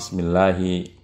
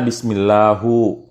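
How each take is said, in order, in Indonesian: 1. Kata "bismillahi" diakhiri dengan vokal i. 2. Kata "bismillahi" diakhiri dengan vokal u. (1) "ada yang kasrah bismillahi" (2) "Tidak bisa kita baca bismillahu"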